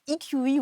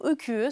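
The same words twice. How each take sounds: First: The letters are spoken with English letter names. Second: The letters are spoken with French letter names. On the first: "à l'anglaise" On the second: "à la française"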